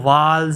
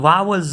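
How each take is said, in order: First: The word is said with one syllable. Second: The word is said with two syllables. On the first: The speaker calls it right. "ये वाल्स है" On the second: The speaker calls it wrong. "वावल्स नहीं है"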